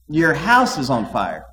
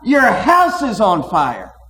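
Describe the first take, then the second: First: It is said in a casual, unhurried way. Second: It is said in an urgent, alarmed way.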